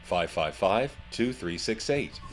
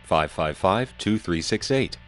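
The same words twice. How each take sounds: First: Noisy phone line with music behind; swamped by background noise; condenser mic phone. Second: Clean telephone line voice; carbon mic phone. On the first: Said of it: "with a condenser mic, it's like this". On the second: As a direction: speak through an old carbon phone. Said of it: "Here's how it is with a carbon mic". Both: Shown as a demonstration.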